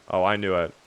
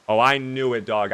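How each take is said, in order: First: Said in the usual way. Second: Gleeful repeat of Oh, I knew it; excited. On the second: Real, not acted. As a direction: punch it a bit more, chuffed. Repeats the find, more excited.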